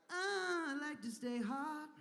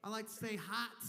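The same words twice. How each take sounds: First: Higher, eager repeat of hot; excited. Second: Said in the usual way. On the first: Shown as a demonstration. Comic repeating his line with a high eager lift. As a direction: say it again with a high burst.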